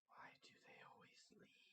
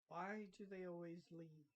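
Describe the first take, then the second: First: It is said very quietly. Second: It is said more loudly.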